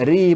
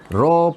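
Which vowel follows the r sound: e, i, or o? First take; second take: i; o. First: The r is followed by an i vowel. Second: The r is followed by an o vowel. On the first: "Ri pun tidak" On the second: "Ro pun tidak"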